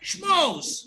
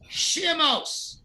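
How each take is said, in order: First: The sh runs straight into m, with no vowel. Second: A short vowel separates the sh from m. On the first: The speaker calls it wrong. "I could have spelled it like this. Watch" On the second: The speaker calls it right. "you pronounce it shimos, not shmos"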